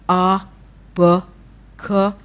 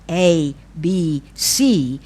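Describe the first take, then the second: First: Each letter is said as its speech sound. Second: Each letter is said by its alphabet name. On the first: "the phonological sound of each letter" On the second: "I knew how to say them, like"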